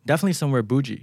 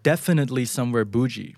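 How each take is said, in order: First: "definitely" shrunk to "def-ly", flowing straight into "somewhere bougie"; fast, run-together speech. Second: Said in the usual way. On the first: Shown as a demonstration. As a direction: slur "definitely" quickly down to two syllables. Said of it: "ผมพูดเร็วๆ ก็เป็น". (พูดรวบ "definitely" เป็น "เดฟ-ลี่" ให้ลื่นๆ เร็วๆ) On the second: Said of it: "คือผมไม่ได้พูดว่า".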